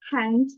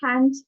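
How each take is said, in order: First: The vowel leans toward an E sound. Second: The vowel is an open A sound. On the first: "kalau yang American accent itu dibacanya" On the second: "itu tuh biasanya lebih ke British accent"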